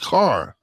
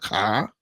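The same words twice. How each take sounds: First: It is said with a pronounced r sound. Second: It is said in a Boston accent, r dropped.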